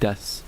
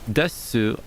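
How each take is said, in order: First: The final u vowel is dropped or whispered. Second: The final u vowel is clearly voiced.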